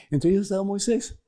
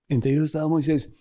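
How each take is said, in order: First: "ellos" lifted high with a rising tune; rising emphasis. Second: Said in the usual way. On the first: Shown as a demonstration. Preacher naming Moisés to listeners, lifting "ellos" high. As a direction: raise the pitch on "ellos" and let it climb.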